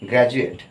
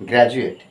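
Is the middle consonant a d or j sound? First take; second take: j; j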